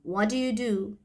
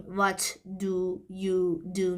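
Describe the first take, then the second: First: "what do you do" run together, "do you" reduced; connected speech. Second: Said in the usual way. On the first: Shown as a demonstration. Teacher contrasting the linked form with separate words. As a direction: let the words flow into each other as "whaddya do". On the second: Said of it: "دیگه نمیگیم".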